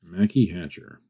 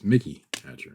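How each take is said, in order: First: The first name has an 'a' vowel, Mackie. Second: The first name has an 'i' vowel, Mickey. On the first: The speaker calls it wrong. "not Mackie" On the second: The speaker calls it right. "It's Mickey Hatcher"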